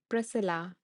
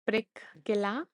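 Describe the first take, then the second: First: The middle of the name has only an S sound. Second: The middle of the name has a K sound. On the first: The speaker calls it right. "no C sound, just the S" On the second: The speaker calls it wrong. "C sound"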